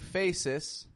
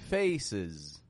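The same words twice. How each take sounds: First: The ending is said with an s sound. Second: The ending is said with a z sound. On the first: The speaker calls it wrong. "I'm not saying faces" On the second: The speaker calls it right. "but faces"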